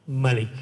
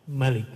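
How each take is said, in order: The two takes are said the same way.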